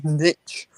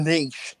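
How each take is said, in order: First: "niche" said as nitch; short-vowel "niche". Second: "niche" said as neesh; long-vowel "niche". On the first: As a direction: say "niche" to rhyme with pitch. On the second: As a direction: say "niche" to rhyme with leash. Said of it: "because there's an E on the end". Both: Shown as a demonstration.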